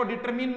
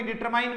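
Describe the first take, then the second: First: डिटरमिन ending in a short "min"; wrong pronunciation. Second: डिटरमाइन ending in a long "mine"; correct pronunciation. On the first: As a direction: say डिटरमिन, last syllable rhyming with "pin". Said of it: "डिटरमिन नहीं बोलेंगे". (डिटरमिन, छोटी 'इ' वाला गलत उच्चारण) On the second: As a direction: say डिटरमाइन, last syllable rhyming with "line". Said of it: "डिटरमाइन बोलेंगे". (डिटरमाइन, 'माइन' वाला सही उच्चारण) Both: Shown as a demonstration.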